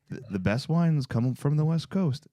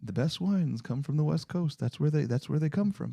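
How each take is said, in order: First: Lower-pitched imitation of buddy Trey; a lightly voiced Trey giving wine advice; Trey impression. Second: Lower-pitched, lightly voiced Trey repeating the tip; a hint of Trey laying down the rule; Trey impression. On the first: Imitating friend Trey's wine tip in a lower voice. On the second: Host redoes his Trey impression for cohost, lower voice. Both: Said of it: "That's my Trey impression".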